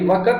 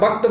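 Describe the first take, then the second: First: An extra vowel separates the k and t sounds. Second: The k and t sounds run together. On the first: This is the village way of saying the word. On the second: This is the standard way of saying the word.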